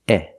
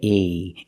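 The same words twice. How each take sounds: First: The vowel is cut short. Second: The vowel is drawn out long. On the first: The speaker calls it right. "It's just eh, eh. It's a short sound" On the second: The speaker calls it wrong. "Don't make it long. Don't say eh"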